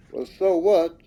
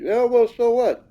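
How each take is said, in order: First: Said in the usual way. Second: Imitating a shrugging skeptic, higher and louder; "Oh, well, so what?" said higher and louder as a mock brush-off; mock dismissive. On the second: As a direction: toss it off like a doubter waving it away. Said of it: "many might think".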